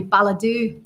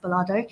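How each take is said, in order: First: Balladoo said as bal-a-DOO with a long stressed DOO at the end; Balladoo, ending on a drawn-out doo; mistaken pronunciation. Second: Ballardo said as bal-AR-do, the middle syllable ARD stressed; correct local pronunciation. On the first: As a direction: say Balladoo, the way she first guessed it. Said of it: "I was thinking it was gonna be". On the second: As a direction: Ballardo with a plain ending do. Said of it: "is pronounced Ballardo". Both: Shown as a demonstration.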